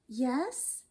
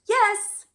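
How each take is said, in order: First: The pitch rises at the end. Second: The pitch falls at the end. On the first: The speaker is not sure they are ready. "your intonation is going up" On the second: The speaker is showing they are ready. "your intonation goes down"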